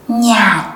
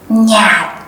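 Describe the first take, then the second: No difference in how they are said.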